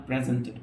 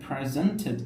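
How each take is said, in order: First: "presented" with no puff on the p; unaspirated lip pop opening "presented". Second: "presented" with a puff on the p; breathy lip burst opening "presented"; aspirated p. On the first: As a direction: say "presented" with a dry p, close to b. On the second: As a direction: say "presented" as "phresented". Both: Shown as a demonstration. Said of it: "not presented".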